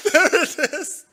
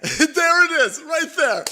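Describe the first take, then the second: First: Mock voice. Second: High, loud laughing there it is; laughing gotcha. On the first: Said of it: "repeat in put-on voice". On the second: Real, not acted. Crowing with laughter at the streamer's quote, high and loud. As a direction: crow with laughter at catching her out. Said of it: "laughing gotcha".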